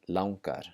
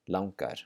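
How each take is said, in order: First: The first vowel is an 'ow' sound. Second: The same.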